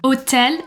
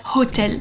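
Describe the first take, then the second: First: The initial h is silent. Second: The initial h is pronounced. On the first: The speaker calls it right. "The H sound doesn't exist in French" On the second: The speaker calls it wrong. "and not"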